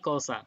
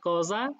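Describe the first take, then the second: First: The middle consonant is a voiceless s sound. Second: The middle consonant is a voiced z sound. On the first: The speaker is from the rest of Italy. "আর বাকি ইতালিতে এটা হয় কসা" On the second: The speaker is from northern Italy. "আপনাদের অঞ্চলে এটা হয় কজা, জ হয়ে যায়"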